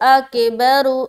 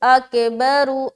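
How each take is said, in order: The two takes are said the same way.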